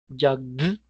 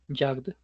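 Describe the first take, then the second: First: The final d sound is strongly exaggerated. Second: The final d sound is light and subtle. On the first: "lo estoy exagerando" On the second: "es mucho más sutil"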